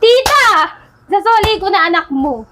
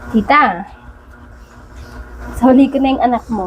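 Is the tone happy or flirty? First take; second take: happy; flirty. First: It is said in a happy tone. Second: It is said in a flirty tone.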